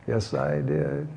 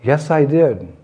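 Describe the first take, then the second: First: Low, slow and hushed; whispered. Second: Firm, slightly lifted "Yes, I did"; insisting. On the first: Child not to be outdone, whispering to mother. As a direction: breathe it slowly like a secret in the ear. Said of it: "whispered in her ear". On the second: Krishna repeating his confession to mother, insistent. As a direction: stand your ground, voice up a touch. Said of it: "And once again". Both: Acted.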